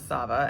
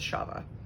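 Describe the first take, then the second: First: The word begins with a plain 's' sound. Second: The word begins with an 'sh' sound. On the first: The speaker calls it wrong. "someone would typically see and pronounce as Sava" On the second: The speaker calls it right. "this would be pronounced as Shava"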